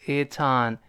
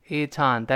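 Both takes have the same delivery.

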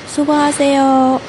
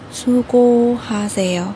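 First: The phrase is said quickly. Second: The phrase is said slowly and carefully.

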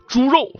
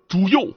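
First: The r sound in 肉 is said the standard way. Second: The r in 肉 is swapped for another consonant.

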